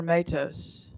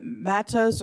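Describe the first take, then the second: First: Matos with a long A, MAY-tohs; alternative pronunciation offered. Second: Matos with a short A, MAT-ohs; first pronunciation offered. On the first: Chair offering another reading of the surname, Matos as MAY-tohs. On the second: Chair checking a witness's surname, Matos as MAT-ohs. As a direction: say Matos with the vowel of "cat". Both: Shown as a demonstration. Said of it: "is it Matos or Matos".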